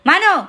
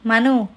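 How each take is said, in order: First: The name is shouted loudly. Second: The name is said softly and calmly. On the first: The children finally obey. "మను అనే tone ... ఇలా అరవగానే" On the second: The children ignore the request. "మను ఇలా చెయ్యి అనే tone"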